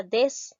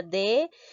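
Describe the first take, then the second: First: Desatento split as des-a-ten-to; teacher showing the wrong split of desatento; wrong syllabification. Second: Desatento split as de-sa-ten-to; teacher showing the correct split of desatento; right syllabification. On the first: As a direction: say desatento breaking after des. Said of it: "no sería". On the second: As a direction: say desatento breaking after de. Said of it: "sino sería". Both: Shown as a demonstration.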